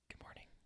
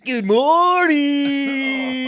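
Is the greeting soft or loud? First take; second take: soft; loud. First: It is said softly and calmly. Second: It is said loudly and brashly.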